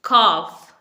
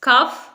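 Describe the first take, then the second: First: The word rhymes with 'off'. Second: The word rhymes with 'cuff'. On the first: The speaker calls it right. "इसे हम बोलेंगे कॉफ" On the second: The speaker calls it wrong. "Wrong"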